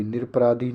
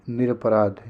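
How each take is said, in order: First: निरपराधी with extra ee at the end; wrong ee ending. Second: निरपराध ending on dh; correct bare ending. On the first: Teacher rejects the form, ee ending on निरपराधी. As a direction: add ee after ध in निरपराधी. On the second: Teacher gives the right form, no vowel ending निरपराध. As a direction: stop on ध in निरपराध. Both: Shown as a demonstration. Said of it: "निरपराधी नहीं".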